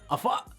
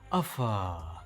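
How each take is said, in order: First: It is said quickly and sharply. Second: It is said gently and drawn out.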